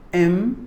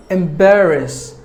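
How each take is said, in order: First: "Embarrass" broken into em, bar, rass; long pauses between the syllables of "Embarrass". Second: Said in the usual way. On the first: Shown as a demonstration. Teacher breaking down the word for learners, "Embarrass" syllable by syllable. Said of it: "There are three syllables". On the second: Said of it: "Word number four".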